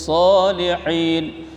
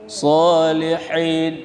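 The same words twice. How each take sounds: No difference in how they are said.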